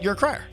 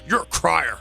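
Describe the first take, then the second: First: It is said in a plain, matter-of-fact tone. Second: It is said in a mocking, belittling tone. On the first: The listener simply shows emotion. "I went you're a crier" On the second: The listener is weak. "I didn't say you're a crier"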